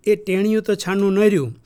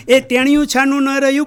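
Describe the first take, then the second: First: Said in the usual way. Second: Higher and louder, driving the point home; raised, louder restatement; emphatic repeat. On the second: Shown as a demonstration. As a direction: say it again with more force. Emphatic repeat of previous line.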